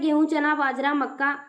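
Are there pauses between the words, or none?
none. The words run together without pauses.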